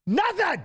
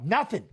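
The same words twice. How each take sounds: First: High, exasperated nothing; nothing happened, exasperated and high. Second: Said in the usual way. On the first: Real, not acted. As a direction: scoff at the doom-mongers, pitched way up. Exasperated at eclipse fearmongers.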